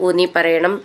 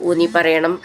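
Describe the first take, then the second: Both takes have the same delivery.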